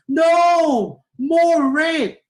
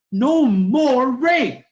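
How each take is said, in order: First: NO shouted and held, long pause, then MORE RAPE; second intonation, wanting more. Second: High, loud, drawn-out chant; rally protest. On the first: Teacher shows changed intonation flipping the meaning, loud split phrasing. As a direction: break after NO, very high and stretched. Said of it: "Paano kung ganito ang pagkaka-, pagkakasabi nyo?". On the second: Teacher demonstrates a rally against abuse, loud protest. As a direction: call it out firmly like a protester. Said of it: "nagrarally ka na, wala na". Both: Shown as a demonstration.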